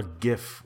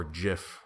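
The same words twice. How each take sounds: First: "gif" with a hard G as in gift. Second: "gif" said as "jif"; soft G. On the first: Podcaster offers both rival pronunciations, "gif" with hard G. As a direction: say "gif" starting like "give". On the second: Podcaster offers both rival pronunciations, "gif" with soft G like jif. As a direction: say "gif" with a J sound. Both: Shown as a demonstration. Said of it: "that's a war I don't wanna get into".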